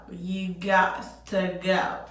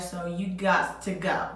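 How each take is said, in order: First: Slow, firm and deliberate; slow emphatic repeat. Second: Said in the usual way. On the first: Retold or imitated. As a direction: spell it out slowly.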